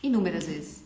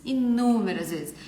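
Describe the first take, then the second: First: Said in the usual way. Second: INÚMERAS stretched out slowly and stressed; emphatic repeat. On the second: Real, not acted. Artist often called rude, stressing "inúmeras" slowly. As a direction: lean hard and slow on "inúmeras".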